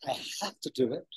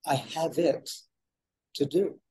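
First: 「I have to do it」のhaveを押して上げる; stress on have to. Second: 「I have it to do」でhaveとitを軽く区切る; stress moved to it. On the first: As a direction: lean on have as a duty. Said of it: "What is the difference between these two statements?". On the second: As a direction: let it and do carry the weight. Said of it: "Taking the emphasis off of "I have to". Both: Shown as a demonstration.

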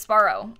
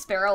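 First: "sparrow" with an open AH, SPAR-oh. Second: "sparrow" with the bird's vowel. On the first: Streamer giving own version of the name, "sparrow" said SPAR-oh. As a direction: say "sparrow" with a first syllable like "spar". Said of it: "I think it's pronounced sparrow". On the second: Streamer reading a viewer's version, "sparrow" said like the bird. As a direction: say "sparrow" as SPAIR-oh. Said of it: "Thought it was pronounced sparrow like the bird". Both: Shown as a demonstration.

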